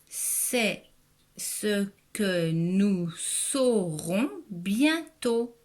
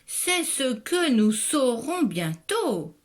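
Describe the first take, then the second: First: It is read plainly, with little expression. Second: It is read expressively, like an exclamation.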